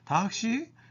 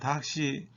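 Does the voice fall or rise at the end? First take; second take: rise; fall. First: The pitch rises at the end. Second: The pitch falls at the end. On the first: It asks whether someone came by taxi. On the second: It answers that someone came by taxi.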